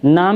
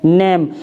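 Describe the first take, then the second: First: The vowel sounds like in 'father'. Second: The vowel sounds like in 'day'. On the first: The speaker calls it wrong. "नहीं पढ़ेंगे इसको" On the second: The speaker calls it right. "हम क्या पढ़ेंगे"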